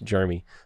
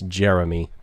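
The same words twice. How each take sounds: First: The first syllable sounds like the word germ. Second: The first syllable sounds like a plain jeh. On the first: The speaker calls it wrong. "like you're covered in germs" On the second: The speaker calls it right. "I believe it's Jeremy"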